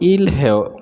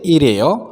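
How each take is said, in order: First: The two parts are said separately. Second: The two parts run together into one.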